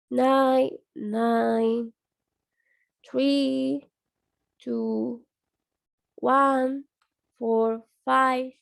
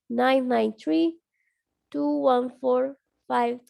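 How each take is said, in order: First: The numbers are said slowly. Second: The numbers are said quickly. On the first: "primero comienzan lento" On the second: "diciéndolo más rápido"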